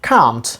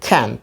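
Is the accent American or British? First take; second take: British; American. First: It has a British accent with a long vowel. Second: It has an American accent. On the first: "In British pronunciation it is pronounced can't. Long sound a has been used here" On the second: "And in American pronunciation it is pronounced can't"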